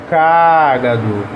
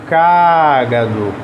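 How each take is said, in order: Both takes have the same delivery.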